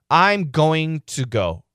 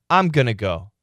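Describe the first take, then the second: First: Going to is said fully as two words. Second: Going to is reduced to gonna.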